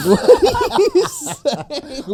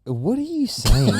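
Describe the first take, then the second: First: High laughing disbelief, very slow. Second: Said in the usual way. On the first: Real, not acted. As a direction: laugh through the question. Laughing at slip.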